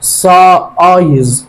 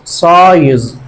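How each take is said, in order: First: سايز drawn out very slowly with a long "aay" in the middle; slow teaching pronunciation. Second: Said in the usual way. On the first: Shown as a demonstration. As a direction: stretch سايز so the long I rings out. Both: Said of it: "شوف آي أهو".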